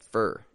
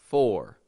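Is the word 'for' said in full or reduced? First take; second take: reduced; full. First: The vowel is reduced and weak. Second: The vowel is full and clear. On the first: "we reduce it to a for" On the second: "we pronounce that full for"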